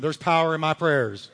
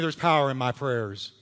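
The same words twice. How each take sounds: First: It is said forcefully, with strong conviction. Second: It is said in a plain, calm way.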